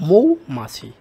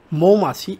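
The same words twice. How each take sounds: First: মৌমাছি with a loud, full 'mou' glide; correct pronunciation. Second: মৌমাছি with a simple 'mo' first syllable; as asked. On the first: Teacher giving the correct pronunciation, মৌমাছি with strong 'mou'. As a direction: punch the 'ou' diphthong opening মৌমাছি. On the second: Teacher reading out the question word, মৌমাছি as 'mo-machi'. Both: Shown as a demonstration. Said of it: "এর সঠিক উচ্চারণ হলো".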